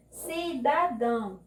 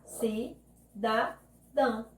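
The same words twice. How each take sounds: First: "Cidadão" said slowly as one word; palavra inteira. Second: "Cidadão" very slowly, syllable by syllable; separando sílabas. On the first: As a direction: say "Cidadão" slowly, without long breaks. ("Cidadão" devagar, palavra inteira) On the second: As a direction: clear pauses inside "Cidadão": Ci, da, dão. ("Cidadão" sílaba por sílaba, com pausas) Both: Shown as a demonstration. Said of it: "e separar".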